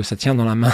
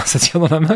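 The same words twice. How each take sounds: First: Said in the usual way. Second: Chuckling through a catchphrase; laughing quote. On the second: Retold or imitated. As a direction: repeat it with a little laugh. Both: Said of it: "comme disait l'autre".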